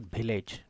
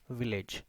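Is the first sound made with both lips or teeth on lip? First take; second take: both lips; teeth on lip. First: The first sound does not use teeth on lip. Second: The first sound uses upper teeth on lower lip. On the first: The speaker calls it wrong. "not village. This is incorrect" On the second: The speaker calls it right. "This is village"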